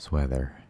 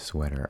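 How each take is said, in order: First: The middle consonant is a th sound. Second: The middle consonant is a t sound. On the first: The speaker calls it wrong. "that doesn't sound right" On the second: The speaker calls it right. "instead of sweater"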